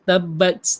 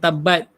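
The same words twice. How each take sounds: First: The final t is released with an audible puff of air. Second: The final t is held back without a puff of air. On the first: The speaker calls it right. "bunyi mahmus juga, berangin tu" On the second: The speaker calls it wrong. "bukan tabat"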